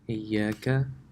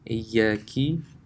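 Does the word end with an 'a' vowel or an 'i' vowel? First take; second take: a vowel; i vowel. First: The word ends with a short 'a' vowel. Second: The word ends with a short 'i' vowel. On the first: The speaker calls it right. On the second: The speaker calls it wrong.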